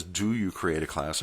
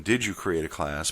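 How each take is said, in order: First: Quoted question leaning on "Do"; soft aside, "Do" picked out; stress on Do. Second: Corrected question leaning on "Did"; soft aside, "Did" picked out; stress on Did. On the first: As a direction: read it softly with emphasis on the present-tense "Do". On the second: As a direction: read it softly with emphasis on the past-tense "Did". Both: Shown as a demonstration. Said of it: "I'm sure they mean".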